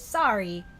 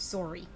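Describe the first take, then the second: First: The first vowel is an open 'ah' sound. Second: The first vowel is a rounded 'oo' sound. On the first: "it's it's sorry" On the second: "with the U X sound it is sorry"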